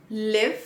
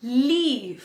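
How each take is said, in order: First: "live" with a short i, rising. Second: "leave" with a long ee, falling. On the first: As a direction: keep the vowel brief in "live". ("live" में छोटी इ की मात्रा) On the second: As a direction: stretch the vowel in "leave". ("leave" में बड़ी ई की मात्रा) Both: Shown as a demonstration. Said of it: "The next pair is".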